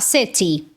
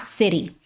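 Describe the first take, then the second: First: The t is a clear, crisp t sound. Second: The t is a quick tap like r. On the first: "soa mais britânico" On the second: "esse T ali vai ter som de rarara, arara, R de arara"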